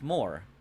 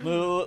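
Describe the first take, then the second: First: The word ends with an r sound. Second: The word ends without an r sound. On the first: "That's that's just how you say it" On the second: "the er is silent"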